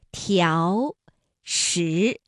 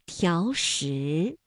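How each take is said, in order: First: 条 and 石 said separately, each slowly rising; second tone on each. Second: 条石 run together, 条 rising less, 石 rising fully; connected reading, small rise on 条 then full rise on 石; tone change on 条. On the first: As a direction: citation tones, 条 rising, 石 rising. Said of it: "应该这样读，三五". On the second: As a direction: link 条石, shorten the rise on 条, lift 石 all the way. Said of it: "第一个字就读成了三四，第二个依旧读三五". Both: Shown as a demonstration.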